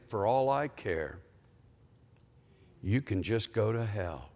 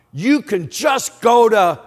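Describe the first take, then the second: First: Soft, lowered repeat of the curse; quiet rebuke. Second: Angry yell, higher and much louder; real loud yell. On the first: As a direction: say it gently and low, as God convicting. God's quiet rebuke echoes the yell. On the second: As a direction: holler it out like a ticked-off mechanic. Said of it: "he yelled real loud". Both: Retold or imitated.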